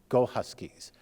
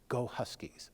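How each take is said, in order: First: It is said louder than a whisper. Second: It is said quietly, in a whisper.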